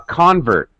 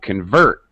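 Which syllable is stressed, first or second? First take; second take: first; second. First: The stress is on the first syllable. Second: The stress is on the second syllable. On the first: It is used as a noun. "As a noun" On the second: It is used as a verb. "As a verb"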